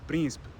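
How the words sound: The unstressed vowels are left out almost entirely. This is a more extreme Portuguese version. "or even just príncipe"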